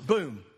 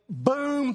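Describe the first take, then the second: First: Boom, dropped low and heavy; loud boom. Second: Boom, high and punchy; rock impact boom. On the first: Preacher repeating the stone's hit, a low heavy boom. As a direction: let the boom fall low and final. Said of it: "loud, and". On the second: Preacher acting the stone striking Goliath, a punchy high boom. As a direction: make the hit land hard. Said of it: "but there you hear it". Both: Shown as a demonstration.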